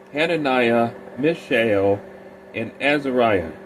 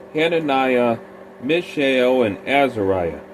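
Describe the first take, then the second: Both takes have the same delivery.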